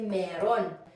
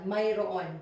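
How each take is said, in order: First: The word is said in a shortened, contracted form. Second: The word is said in its full form. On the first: This is the everyday spoken form. "in spoken Filipino, we say meron" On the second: This is the form used when reading. "the correct pronunciation is this one"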